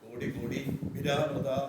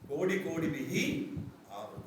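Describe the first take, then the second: First: The last word is run together as viravrita. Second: The last word is split as vihi avrita. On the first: The speaker calls it wrong. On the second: The speaker calls it right.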